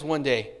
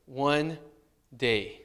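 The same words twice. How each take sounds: First: Said in the usual way. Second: "One ... day" soft, low and drawn apart; half-hearted. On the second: Shown as a demonstration. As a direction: drag "One" and "day" out reluctantly. Jonah's half-hearted mission.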